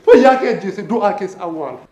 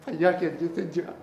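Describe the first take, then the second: First: Strong attack on the first word, then falling; forceful recitation. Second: Low, soft poetic line; hushed recitation. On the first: Poet repeating the line, forcefully declaimed. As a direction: hit the opening hard and let it sink. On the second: Poet starting a repeated line, hushed. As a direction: drop the voice for the verse. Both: Acted.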